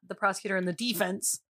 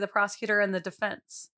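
First: Defense is stressed on the first syllable. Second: Defense is stressed on the second syllable. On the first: It refers to the defending side in sports. The speaker calls it wrong. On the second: It refers to the legal side in a trial. The speaker calls it right. "when I'm talking about a jury, I'm going to say"

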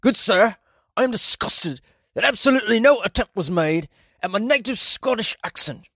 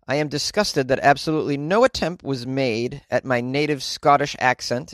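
First: It is read in an attempted Scottish accent. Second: It is read in the speaker's normal accent.

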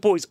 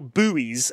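First: The word is said in a British accent. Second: The word is said in an American accent.

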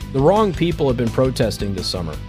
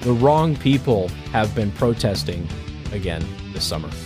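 First: It is said at normal speed. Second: It is said slowly.

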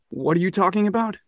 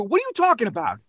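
First: It sounds stunned and shocked by bad news. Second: It sounds like an annoyed, busy New Yorker.

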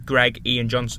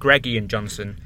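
First: The first two words are said separately. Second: The first two words run together as one. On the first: The speaker calls it right. "Greg Ian isn't one word" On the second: The speaker calls it wrong. "Not Greg Ian Johnson. Greg Ian isn't one word"

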